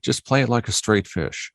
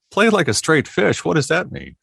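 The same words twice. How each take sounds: First: Said in the usual way. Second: High, baffled echo of the request; incredulous. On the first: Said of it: "they go". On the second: Retold or imitated. Retelling the fish job to the interviewer, high disbelieving echo. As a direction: repeat it back in total disbelief. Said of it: "I'm like".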